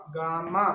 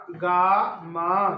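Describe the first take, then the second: First: Said in the usual way. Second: gamma stretched very slowly and louder, each syllable held; slow teaching take of gamma, with the quick take after it; drawn-out demo. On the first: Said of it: "teacher repeats word". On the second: Shown as a demonstration. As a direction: draw out gamma so a child hears each sound. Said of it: "teacher demonstrates word twice".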